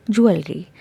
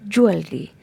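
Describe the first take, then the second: No difference in how they are said.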